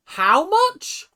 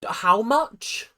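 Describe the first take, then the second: First: Much higher and louder, a squealing how much; shrieking disbelief. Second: A louder, higher stunned ask; shocked question. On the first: Repeating the price to the show, a shocked shriek. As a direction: shriek it like the number can't be real. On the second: Hearing the uniform price, stunned and louder. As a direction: blurt it out in disbelief. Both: Real, not acted.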